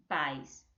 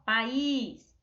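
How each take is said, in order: First: Pais as one short falling syllable, PAIS; stress on PA. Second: País in two syllables, with a long raised ÍS; pa-ÍS, second syllable held long; stress on final ÍS. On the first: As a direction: say pais low, stress on the a gliding into i. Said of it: "a sílaba tônica mais forte é o pá". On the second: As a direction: hit and stretch the í in país. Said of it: "muda quando a gente fala país". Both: Shown as a demonstration.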